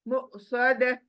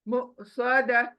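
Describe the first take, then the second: The two takes are said the same way.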